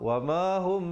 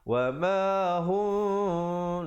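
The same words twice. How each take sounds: First: The final m sound is cut short. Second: The final m sound is held for two counts. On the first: The speaker calls it wrong. "Dia tak panjangkan dua harakat" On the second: The speaker calls it right. "Dua harakat di situ"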